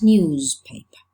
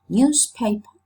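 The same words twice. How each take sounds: First: The middle sound is a voiced z. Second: The middle sound is a voiceless s. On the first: "some others newspaper" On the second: "some people pronounce it newspaper"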